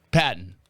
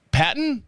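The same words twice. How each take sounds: First: "Patton." low and falling; settled answer. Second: "Patton?" asked high, rising; questioning try. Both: Shown as a demonstration. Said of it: "I'm thinking of other words".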